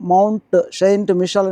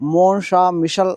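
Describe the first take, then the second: First: Saint is said as in English. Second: Saint is said as in French. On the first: "ఇంగ్లీష్లో మనం mount సెయింట్ మిషల్ అని పిలుస్తాం" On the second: "French వాళ్ళు దీన్ని ప్రొనౌన్స్ ఎలా చేస్తారంటే"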